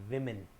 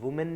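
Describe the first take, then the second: First: The first syllable sounds like 'wi'. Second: The first syllable sounds like 'woo'. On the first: The speaker calls it right. "ये जो sound देगा है या तो वी या डब्ल्यू आई" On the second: The speaker calls it wrong. "डब्ल्यू ओ M E N वुमेन नहीं होगा"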